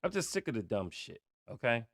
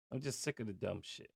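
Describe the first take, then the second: First: Much softer, weary and fed up; softer, tired of it all; quietly fed up. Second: Very soft and quick, just muttered; barely voiced, fast and fed up; quietly fed up. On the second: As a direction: throw it away under the breath. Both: Real, not acted. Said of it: "Let me calm down".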